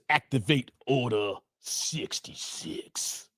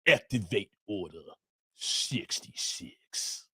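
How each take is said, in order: First: It is read in his normal voice. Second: It is said in an imitated character voice.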